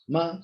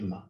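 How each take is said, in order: First: The pitch rises through the word. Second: The pitch stays level throughout. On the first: It means hemp. "rising tone is here" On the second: It means mother. "neither falling nor let's say rising"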